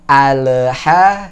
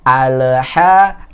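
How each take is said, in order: The two takes are said the same way.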